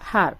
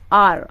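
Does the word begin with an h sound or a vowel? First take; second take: h sound; vowel. First: The word begins with an h sound. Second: The word begins with a vowel sound. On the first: The speaker calls it wrong. "we are not pronouncing like har" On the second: The speaker calls it right. "Like it's R"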